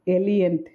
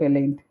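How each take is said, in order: First: The name is pronounced like 'Eliant'. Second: The name is pronounced like 'Elaine'. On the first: This is how the audiobook narrator says it. The speaker calls it wrong. "he says Eliant instead of Elaine" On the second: This is the intended pronunciation. The speaker calls it right. "instead of Elaine"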